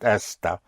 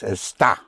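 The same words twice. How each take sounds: First: The stress is on the first syllable. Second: The stress is on the last syllable. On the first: It means this. The speaker calls it wrong. "and not esta, because esta means this" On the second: It means you are or it is. The speaker calls it right. "you are is esta"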